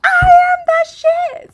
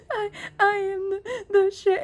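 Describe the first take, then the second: First: Imitating a kid yelling it, much higher, louder and slow; proud shout with every word stretched; confident shout. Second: Imitating a crying child, higher and slowed; small teary voice, imitating a sobbing child. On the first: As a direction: belt it out like you finally believe it. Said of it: "say it like you mean it". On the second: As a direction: whimper it out like a kid in tears. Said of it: "he's, like, crying".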